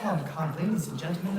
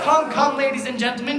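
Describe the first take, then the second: First: Much softer, hushed appeal; soft coaxing. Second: Loud, high call to the crowd; rally the audience; loud coaxing. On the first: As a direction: coax them quietly. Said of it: "let's do be a little serious". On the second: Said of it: "we boo and hiss the villain". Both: Acted.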